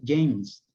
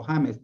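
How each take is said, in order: First: "James" as English "jaymz"; English pronunciation. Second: "James" read as Spanish "HA-mes". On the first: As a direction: say "James" with an English J, one syllable. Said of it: "se pronuncia James". ("James" pronunciado en inglés, "yeims") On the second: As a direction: say "James" with a Spanish jota, two syllables. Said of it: "usted cuando lee, por ejemplo". ("James" leído a la española, "já-mes") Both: Shown as a demonstration.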